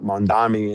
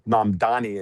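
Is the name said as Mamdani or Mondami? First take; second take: Mondami; Mamdani. First: The name is said as Mondami. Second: The name is said as Mamdani. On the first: The speaker calls it wrong. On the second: The speaker calls it right.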